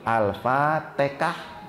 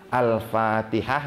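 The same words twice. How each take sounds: First: The consonant before the last syllable is k. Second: The consonant before the last syllable is h.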